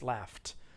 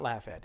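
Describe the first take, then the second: First: The ending is a plain t sound. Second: The ending is not a plain t sound. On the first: The speaker calls it right. "it's just a t sound" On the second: The speaker calls it wrong. "It's not laughed"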